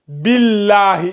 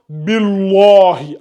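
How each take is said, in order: First: The L sound is thin and light. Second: The L sound is thick and heavy. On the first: The speaker calls it right. "il n'est pas emphatique. Il est aminci" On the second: The speaker calls it wrong. "et non"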